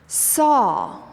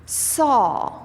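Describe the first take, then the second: The two takes are said the same way.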